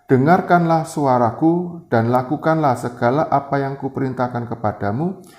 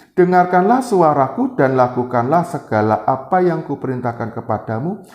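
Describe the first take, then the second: Both takes have the same delivery.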